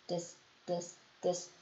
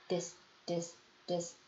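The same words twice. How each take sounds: The two takes are said the same way.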